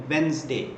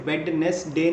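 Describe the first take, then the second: First: वेडनेसडे as Wenz-day, two syllables; correct pronunciation. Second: वेडनेसडे read as written, Wed-nes-day; the wrong way, वेडनेसडे in three syllables; spelling pronunciation. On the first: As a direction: say वेडनेसडे with the middle d silent. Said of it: "आप इसे बोलते हैं वेडनेसडे". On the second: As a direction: sound every letter of वेडनेसडे. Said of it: "आप इसे वेडनेसडे नहीं बोलते". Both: Shown as a demonstration.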